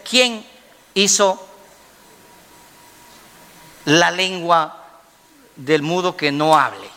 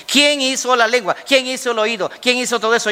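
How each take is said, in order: First: Measured, with long pauses between phrases; deliberate divine question. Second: Raised pitch, questions in quick succession; insistent divine challenge. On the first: God questions Moses, deliberate and halting for weight. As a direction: hand out the question piece by piece. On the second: God challenges Moses about who made everything, insistent. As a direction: press each question home, pitched high. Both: Acted.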